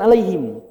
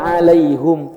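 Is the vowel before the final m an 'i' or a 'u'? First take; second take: i; u. First: The last syllable is said with an 'i' vowel. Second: The last syllable is said with a 'u' vowel. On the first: This is not how the Hamzah reading says it. "bukan alaihim" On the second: This is how the Hamzah reading says it. "Zirotol ladzina an'amta alaihum"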